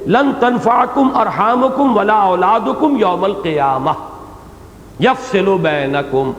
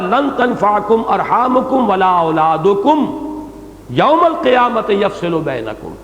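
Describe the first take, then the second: First: The pause comes after 'yawmal qiyamah'. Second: The pause comes before 'yawmal qiyamah'.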